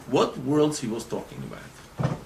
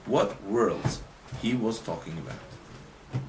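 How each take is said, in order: First: Said in the usual way. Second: Spaced-out words, tailing off softer; slow, deliberate question. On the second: Real, not acted. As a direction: slowly put the question to the class. Question repeated slowly for listeners.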